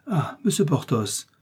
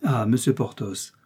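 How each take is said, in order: First: Cries out his name, pitched up; an eager exclamation of his name; exclaimed. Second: Said in the usual way. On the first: A narrator's reading. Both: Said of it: "s'écria la procureuse".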